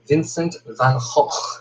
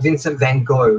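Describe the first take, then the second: First: Gogh is said with rough throaty sounds. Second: Gogh is said like the English word go. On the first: The speaker calls it right. "A lot of phlegm when it comes to speaking the Dutch language" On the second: The speaker calls it wrong. "people don't know how to pronounce his name correctly, so they say go"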